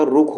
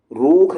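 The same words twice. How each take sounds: First: रुख with a quick "rukh"; short U. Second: रूख with a stretched "roookh"; long U. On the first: Teacher giving the correct form, short U in रुख. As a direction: keep the vowel in रुख brief. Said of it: "रुख होता है". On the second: Teacher showing the wrong form, long U in रूख. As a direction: draw out the vowel in रूख. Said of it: "रूख नहीं होता". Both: Shown as a demonstration.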